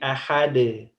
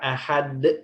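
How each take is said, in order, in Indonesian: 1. Bunyi akhirnya dilepas lembut, tidak ditekan. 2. Bunyi akhirnya ditekan dan dipotong keras. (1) "tapi ahad" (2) "ujungnya jangan ditekan ahad"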